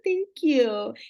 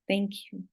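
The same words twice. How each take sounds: First: It is said warmly, with strong feeling. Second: It is said flatly, without any warmth. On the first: The person is truly grateful. The speaker calls it right. "You feel it" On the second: The person is not really grateful. The speaker calls it wrong. "you're not feeling the thank you"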